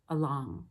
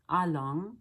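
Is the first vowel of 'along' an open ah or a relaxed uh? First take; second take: uh; ah. First: The first vowel is a small relaxed uh. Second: The first vowel is an open ah sound. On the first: The speaker calls it right. "but along. ... Uh instead of ah" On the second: The speaker calls it wrong. "So not along"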